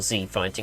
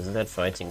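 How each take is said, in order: First: The letter is said the American way, 'zee'. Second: The letter is said the British way, 'zed'.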